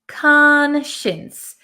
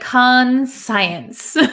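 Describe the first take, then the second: First: The ending sounds like the word shins. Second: The ending sounds like the word science. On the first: The speaker calls it right. "We pronounce it conscience" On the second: The speaker calls it wrong. "It looks like conscience"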